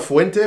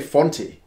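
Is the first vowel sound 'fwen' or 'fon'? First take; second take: fwen; fon. First: The name begins with a 'fwen' sound. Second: The name begins with a plain 'fon' sound. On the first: The speaker calls it right. "which is F-U-E" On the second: The speaker calls it wrong. "How does he say Fonte?"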